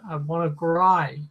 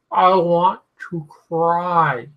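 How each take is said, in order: First: Said in the usual way. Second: Slow, drawn-out plea; slow pleading. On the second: Real, not acted. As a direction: drag it out, begging.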